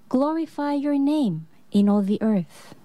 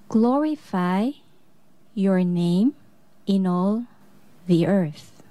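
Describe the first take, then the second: First: It is said at a normal pace. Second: It is said very slowly.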